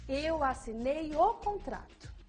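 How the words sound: The word contrato is emphasized. "em seguida a palavra contrato"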